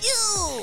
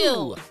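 First: It is said in a very high voice. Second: It is said in a normal voice.

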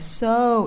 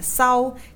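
First: The vowel is a rounded English 'oh' glide. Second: The vowel sounds like Vietnamese 'âu', an 'ow'. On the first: The speaker calls it right. "hay là so" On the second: The speaker calls it wrong. "đừng đọc là sau"

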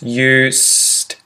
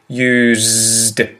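First: The s is unvoiced, a hissing s sound. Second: The s is voiced, a buzzing z sound. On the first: "I don't vocalize the S, and so that's why you get the S sound" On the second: "I vocalize the S and make it a Z or a Z sound"

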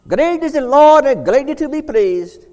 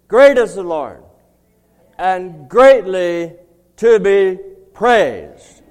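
First: It is said in an imitated Scottish accent. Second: It is said in the speaker's plain accent.

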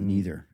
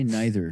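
First: It is the everyday pronunciation of the word. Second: It is the posh-sounding pronunciation of the word. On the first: This is the way the other person does not say it. "not neither" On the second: This is how the other person always says it. "you say neither"

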